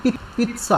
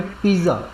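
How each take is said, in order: First: पिज़्ज़ा said with a sharp ts, higher; teacher showing the Italian पिज़्ज़ा with a ts sound; Italian pizza. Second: Said in the usual way. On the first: Shown as a demonstration. Italian teacher demonstrating पिज़्ज़ा as pits-sa for the class. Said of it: "वहाँ पे क्या बोलते हैं?". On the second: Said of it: "इसको बोलते हैं India में पिज़्ज़ा".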